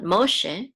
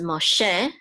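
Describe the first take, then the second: First: Moshe with the accent on the first syllable, MO; wrong stress. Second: Moshe with the accent on the final "she"; stress on second syllable. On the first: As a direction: hit the start of Moshe: MO-she. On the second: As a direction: lean on the end of Moshe: mo-SHE. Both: Shown as a demonstration. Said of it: "not Moshe".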